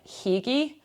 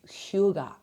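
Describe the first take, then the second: First: The word is said as English spelling suggests. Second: The word is said close to Danish. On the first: The speaker calls it wrong. "most people in Scotland anyway would probably mispronounce as like hygge" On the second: The speaker calls it right. "It's the closest that I've gotten to being able to pronounce"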